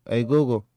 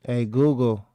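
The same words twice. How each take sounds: The two takes are said the same way.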